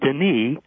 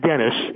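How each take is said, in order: First: The final S is silent. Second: The final S is pronounced. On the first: The speaker calls it right. "silent T and silent S" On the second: The speaker calls it wrong. "not Dennis"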